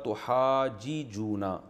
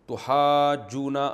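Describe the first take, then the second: First: The two jeem sounds are said separately. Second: The two jeem sounds are merged into one.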